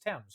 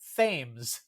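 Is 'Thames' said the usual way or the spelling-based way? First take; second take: usual; spelling-based. First: The name gets its usual established pronunciation. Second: The name is sounded out as it is spelled. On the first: The speaker calls it right. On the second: The speaker calls it wrong.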